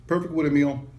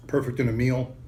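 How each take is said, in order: First: Said in the usual way. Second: Talking through a mouthful; words round a bite of food; mouth full. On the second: Real, not acted. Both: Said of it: "Sorry, talking my mouth full".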